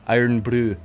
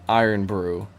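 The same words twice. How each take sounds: First: It is said in a Scottish accent. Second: It is said in the speaker's usual accent. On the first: The speaker calls it right. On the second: The speaker calls it wrong.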